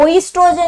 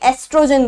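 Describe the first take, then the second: First: The word starts with an 'oy' sound. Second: The word starts with an 'eh' sound. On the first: The speaker calls it wrong. "ओइस्ट्रोजन नहीं" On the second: The speaker calls it right. "एस्ट्रोजन बोलते हैं इसको"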